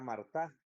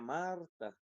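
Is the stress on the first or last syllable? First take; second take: last; first. First: The stress is on the last syllable. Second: The stress is on the first syllable. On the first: The speaker calls it wrong. "no puede ser la sílaba tónica la última, porque diría Marta, y esa palabra no existe" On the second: The speaker calls it right. "si ponemos la sílaba tónica aquí, que sería mar, diría Marta, y así es como es la palabra"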